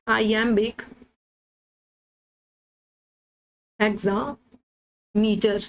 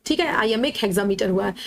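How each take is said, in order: First: Drawn out slowly, word by word; slow dictation. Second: Said in the usual way. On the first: Shown as a demonstration. Teacher dictating the meter name to students, slowly drawn out. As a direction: stretch each word so students can note it down. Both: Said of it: "कौन सा metre use हुआ है?".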